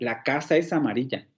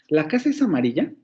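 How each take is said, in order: First: It is said with a plain statement intonation. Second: It is said with a questioning intonation. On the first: The speaker asserts that it is so. "lo puedo hacer como una afirmación" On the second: The speaker is asking whether it is so. "la puedo hacer como una pregunta"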